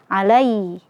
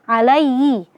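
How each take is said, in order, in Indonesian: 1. Bunyi h-nya samar dan hampir tidak terdengar. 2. Bunyi h-nya samar dan hampir tidak terdengar.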